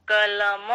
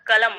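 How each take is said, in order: First: कलम with a full final म; the careful कलम with the म fully sounded; correct pronunciation. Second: कलम said fast with a half म; the common rushed "kalam" with a short म; everyday pronunciation. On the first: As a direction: say कलम giving the म its full length. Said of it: "वो म पूरा है". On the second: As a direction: say कलम quickly as "kalam", clipping the final म. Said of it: "यही बोलते हैं ना कलम". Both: Shown as a demonstration.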